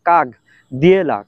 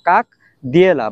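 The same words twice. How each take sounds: First: The first word ends with a g sound. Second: The first word ends with a k sound. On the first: The speaker calls it right. "এটার উচ্চারণ কাক দিয়েলা হবে না, কয়াকার গ" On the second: The speaker calls it wrong. "বানান অনুযায়ী যদি উচ্চারণ করি তাহলে উচ্চারণ হবে কাক, কয়াকার ক"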